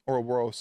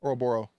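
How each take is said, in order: First: The word ends with a final s sound. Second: The word ends without a final s sound.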